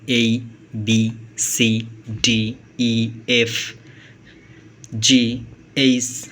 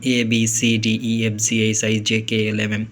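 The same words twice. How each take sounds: First: এই said like "ay", slow, each letter drawn out; slow alphabet recital, এ said as এই; careful letter names. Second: Said in the usual way. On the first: Shown as a demonstration. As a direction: spell out এই, B, C slowly and clearly, with এ turned into এই. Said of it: "এ কে এ না উচ্চারণ করে এই উচ্চারণ করতে পারেন". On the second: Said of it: "আমরা আগে ছোটোবেলায় যেভাবে উচ্চারণ করতাম".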